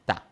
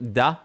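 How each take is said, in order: First: The syllable begins with a voiceless T sound. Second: The syllable begins with a voiced D sound. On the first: The speaker calls it right. "ta. Like you would say tarnished" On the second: The speaker calls it wrong. "Not da"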